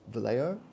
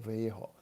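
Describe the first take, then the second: First: The name is said with an English pronunciation. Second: The name is said with a Spanish pronunciation. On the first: "all of my English speaker friends have said Vallejo" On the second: "he says Vallejo. Our Spanish friends could help me"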